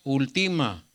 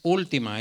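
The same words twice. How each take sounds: First: The stress is on the middle syllable. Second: The stress is on the first syllable. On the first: The speaker calls it wrong. "Si fuera aquí diría" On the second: The speaker calls it right. "Pero es última, es antepenúltima"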